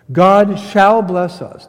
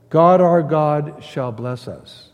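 First: "shall" hit hard, loud and slow; slow, louder verse reading, punching "shall"; stress on SHALL. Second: Said in the usual way. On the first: Retold or imitated. Preacher stressing the verse's future tense, emphatic "shall". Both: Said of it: "No, it's future tense".

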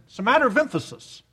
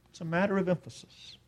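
First: Quick, higher-pitched point; quick remark. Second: Much softer, quick aside; hushed repeat. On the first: Preacher explaining focus at the table, quick and pointed. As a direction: toss it out briskly. First take of repeated remark. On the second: Preacher letting the point on emphasis sink in, hushed. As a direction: drop it almost to a murmur. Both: Real, not acted.

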